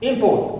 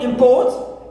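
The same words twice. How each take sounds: First: The stress is on the first syllable. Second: The stress is on the second syllable. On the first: The word is a noun. "If we stress the first syllable, it is a noun" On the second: The word is a verb. "If we stress second syllable, it becomes a verb"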